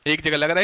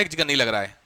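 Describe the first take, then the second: First: "लग रहा है" rising at the end, affirming; teacher stresses where N is used; contrastive stress. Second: "जगह" pressed, falling and lower; teacher stresses where N is not used; contrastive stress. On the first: Teacher contrasting two cases for students, rising affirmative. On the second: Teacher contrasting two cases for students, lower falling denial. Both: Shown as a demonstration. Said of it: "कुछ कुछ आया समझ में?".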